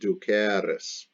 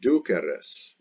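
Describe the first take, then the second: First: The middle e vowel is held long. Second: The middle e vowel is kept short. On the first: You will be led. "the E is a long E" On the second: You are being led. "which is different from duceris"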